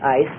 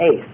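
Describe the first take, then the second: First: The vowel sounds like the word 'ice'. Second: The vowel sounds like the word 'ace'. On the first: This is the pronunciation the speaker was taught. "I learned ice" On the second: This is the pronunciation the speaker was not taught. "not ace"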